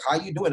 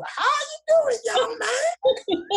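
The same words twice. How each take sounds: First: Said in the usual way. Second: Very high mock Southern old-lady drawl; Southern country drawl. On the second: Old lady greeting a student in the hallway, imitated Southern drawl. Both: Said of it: "this is Southern country drool kind of talk".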